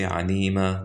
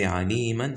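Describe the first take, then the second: First: The word ends with a lengthened 'a' vowel. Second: The word ends with a short vowel and 'n'. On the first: The reciter stops on this word. "if you guys stop on عليما, you say عليما like this" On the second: The reciter continues to the next word. "we're continuing"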